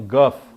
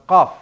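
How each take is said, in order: First: The word begins with a hard g sound. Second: The word begins with a deep q sound. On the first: "Dia ngomongnya gof" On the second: "Disuruh bilang qaf"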